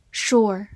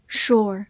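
Both takes have the same delivery.

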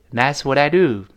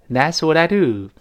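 First: Said in the usual way. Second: "do" hit loud and falling; stress on do. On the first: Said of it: "这个do在这儿不能读成的". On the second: Shown as a demonstration. Teacher showing the stressed do. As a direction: land hard on "do". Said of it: "do要重读了".

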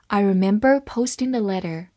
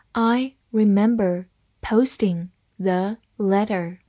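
First: Said in the usual way. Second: "I remember posting the letter", slow, word by word; slow read-along. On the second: Shown as a demonstration. Teacher modelling the first sentence for learners, slow word-by-word reading. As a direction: separate each word clearly for learners. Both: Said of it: "好，慢慢来读".

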